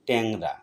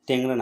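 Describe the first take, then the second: First: The first vowel is an open a-like sound. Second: The first vowel is a closed e sound. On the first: The speaker calls it right. "আমরা বলি ট্যাংরা, সঠিক উচ্চারণ" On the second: The speaker calls it wrong. "ট্যাংরা না বলে"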